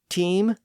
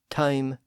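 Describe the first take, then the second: First: The vowel sounds like the ee in team. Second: The vowel is an in-between, uh-ee-like sound. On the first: This is the oldest form of the word. "So it went from E to A to I" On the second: This is the intermediate historical form. "there was an intermediate stage where it was something like A"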